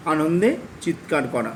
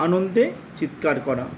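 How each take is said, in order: Both takes have the same delivery.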